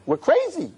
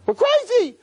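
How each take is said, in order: First: Emphatic. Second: Louder emphatic. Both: Real, not acted. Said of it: "repeated for emphasis".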